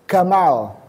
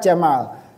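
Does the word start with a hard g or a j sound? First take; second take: g sound; j sound. First: The word starts with a hard g sound. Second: The word starts with a j sound. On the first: This is how Egyptians say it. "Tapi kalau orang Mesir bunyinya menjadi" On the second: This is how Saudis and eastern Arabs say it.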